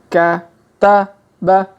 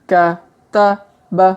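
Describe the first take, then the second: Both takes have the same delivery.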